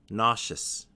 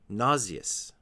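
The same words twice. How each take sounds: First: It has two syllables, ending in shus. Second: Its ending is not pronounced as shus. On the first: This is the more common pronunciation. "only two. The first syllable, the stressed syllable, is na, and the second syllable is shus" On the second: Only some people pronounce it this way. "some people pronounce this word a little bit differently"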